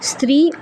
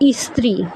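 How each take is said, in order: First: The word begins directly with the cluster 'str'. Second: An extra 'i' vowel is added before 'str'. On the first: The speaker calls it right. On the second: The speaker calls it wrong.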